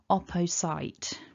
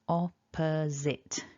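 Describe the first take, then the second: First: The last syllable sounds like 'sight' with S. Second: The last syllable sounds like 'zit' with Z. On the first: The speaker calls it wrong. "mispronounce this word something like opposite" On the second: The speaker calls it right. "What we're aiming for is opposite"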